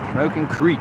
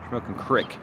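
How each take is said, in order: First: The last word has a long 'ee' vowel. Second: The last word has a short 'i' vowel. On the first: The speaker calls it wrong. "not Creek" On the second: The speaker calls it right. "It's Crick"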